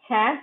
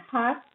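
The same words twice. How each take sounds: First: "hat" (half) with a front a, as in cat; American vowel. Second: "hat" (half) with a back ah; British vowel. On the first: Teacher contrasting word pairs, American front vowel in "hat". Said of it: "cap in American". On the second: Teacher contrasting word pairs, British ah in "hat". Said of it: "half in British". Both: Shown as a demonstration.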